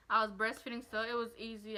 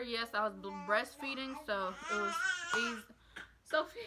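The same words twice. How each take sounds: First: Said in the usual way. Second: Holding back a small sob mid-sentence; choked up. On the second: Real, not acted. Mom on her birth vlog, getting teary, tearful catch. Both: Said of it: "Sorry I got emotional".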